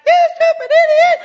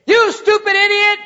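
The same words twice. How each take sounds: First: Put-on high, loud little-kid echo; child copying. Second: Loud angry snap at a driver; road rage insult. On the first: Kid in the back seat echoing dad, high and loud. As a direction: parrot it like a small child. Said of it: "you hear in the back". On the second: Retold or imitated. Parent yelling at a bad driver, loud angry snap. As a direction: yell it at the car ahead. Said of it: "you get mad at a driver and say".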